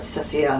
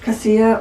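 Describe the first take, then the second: First: The name begins with a soft s sound. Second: The name begins with a hard k sound. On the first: "a soft C" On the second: "It's a hard C"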